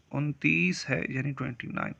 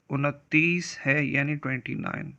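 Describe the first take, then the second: No difference in how they are said.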